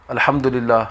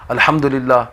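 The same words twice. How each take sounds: Both takes have the same delivery.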